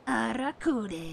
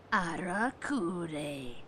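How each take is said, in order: First: "Arakure." higher and rolled, a-ra-ku-de, slow and falling; emphatic repeat. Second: "Arakure." spelled out slowly, AH-ra-ku-day, falling; careful syllables. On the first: Correcting his own first try, emphatic higher repeat. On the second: Restarting the game title after stumbling, slow careful syllables. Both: Shown as a demonstration. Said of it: "of his Ara".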